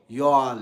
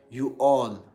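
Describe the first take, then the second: First: "you all" run into one syllable, like yall; American contraction. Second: "you all" said slowly as two words; two separate words. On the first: Giving viewers an American example, one merged syllable. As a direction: squash "you all" into a single loud yall. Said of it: "American accent". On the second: Showing what Americans don't say, two separate words. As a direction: pronounce "you all" in full, you then all. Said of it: "they are not saying, like, you all". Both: Shown as a demonstration.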